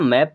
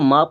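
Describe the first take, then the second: First: The vowel is a short 'ae' sound. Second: The vowel is a long 'ah' sound. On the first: The speaker calls it right. "मैप पढ़ना है" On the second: The speaker calls it wrong. "माप नहीं पढ़ना"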